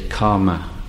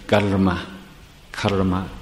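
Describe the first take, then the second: First: The r is made with a plain sound. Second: The r is made with a special sound. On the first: "So they say karma" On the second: "making that special sound with the r"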